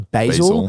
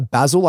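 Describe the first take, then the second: First: Basil is said with an American pronunciation. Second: Basil is said with an Australian pronunciation. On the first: This is the way an American audience expects. "I have to say" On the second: This is the speaker's natural way of saying it. "instead of saying"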